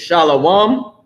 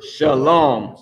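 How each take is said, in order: First: "shalom" as SHAH-lo-wum, drawn out; popular mispronunciation. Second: "shalom" as shuh-LOHM, slow and deliberate; correct form. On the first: Teacher showing what people say, "shalom" as drawn-out SHAH-lo-wum. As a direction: stretch "shalom" into an open shah, then lo-wum. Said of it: "What people say is shalom". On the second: Teacher giving the actual word, "shalom" as slow shuh-LOHM. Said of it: "it is the word shalom". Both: Shown as a demonstration.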